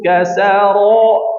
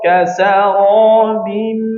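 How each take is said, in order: First: The word ends on a vowel with no m. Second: The word ends with an m sound. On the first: The speaker calls it wrong. "jangan kasaro" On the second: The speaker calls it right. "tapi kasarabim"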